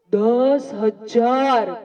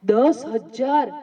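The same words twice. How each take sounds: First: Drawn-out emphasis; slow and drawn out. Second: Slow prompting repeat; slow, drawn-out repeat. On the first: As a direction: stretch each word slowly, weighty. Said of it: "કેટલા?". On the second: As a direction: draw the number out again, slowly. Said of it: "જોરથી બોલો, જોરથી". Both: Shown as a demonstration.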